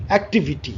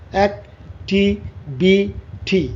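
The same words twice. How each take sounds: First: Said in the usual way. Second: "activity" slowly as অ্যাক, টি, ভি, টি; stopping at each syllable. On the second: Shown as a demonstration. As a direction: pause after every syllable of "activity". ("Activity" প্রতি সিলেবলে থেমে, ধীরে) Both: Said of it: "তুমি কয়বার তোমাকে থামতে হচ্ছে".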